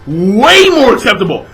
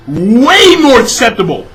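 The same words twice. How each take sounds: The two takes are said the same way.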